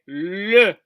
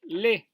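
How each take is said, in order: First: The vowel is a rounded, relaxed 'uh' sound. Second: The vowel is a clear, spread 'eh' sound. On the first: The speaker calls it right. "c'est le" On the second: The speaker calls it wrong. "Ne dites pas les"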